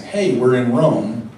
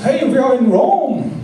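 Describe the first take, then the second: First: Said in the usual way. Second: Mock German accent, much higher, louder and slow. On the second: Imitating the German couple's email in a hammed-up German accent. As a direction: ham up the German accent as a cheerful greeting. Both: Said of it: "only it was with a German accent".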